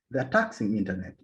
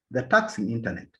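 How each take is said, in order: Both takes have the same delivery.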